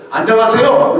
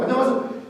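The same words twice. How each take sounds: First: The greeting is said loudly and clearly. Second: The greeting is said quietly, barely audible. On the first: The other person clearly notices the greeting. The speaker calls it right. "목소리도 크게 하고" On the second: The greeting goes unnoticed by the other person. The speaker calls it wrong. "자기가 혼자 한 거지?"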